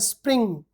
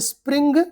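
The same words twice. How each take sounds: First: The word ends with a nasal ng sound. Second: The word ends with a hard g sound. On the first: The speaker calls it right. "but a spring" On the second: The speaker calls it wrong. "This is not a spring"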